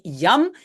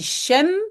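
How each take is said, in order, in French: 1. Il commence par un son y. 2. Il commence par un son sh doux. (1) "en Belgique, si on utilise yam, on dit yam" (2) "souvent aussi shem"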